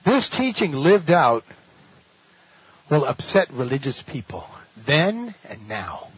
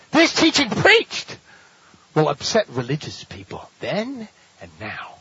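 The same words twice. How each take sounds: First: Slow, weighty delivery; preacher hammering the key claim; slow emphasis. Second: Preacher contrasting lived and preached; stress on preached. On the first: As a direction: drive it home slowly. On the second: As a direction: hit "preached" hard. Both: Shown as a demonstration. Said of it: "Listen carefully".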